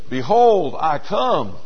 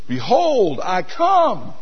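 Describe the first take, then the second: First: It is said plainly with normal force. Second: It is said with somewhat more emphasis. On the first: "He said" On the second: "he said it with a little more emphasis"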